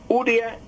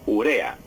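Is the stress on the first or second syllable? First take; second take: first; second. First: The stress is on the first syllable. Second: The stress is on the second syllable. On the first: The speaker calls it wrong. "No es urea" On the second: The speaker calls it right. "sino urea"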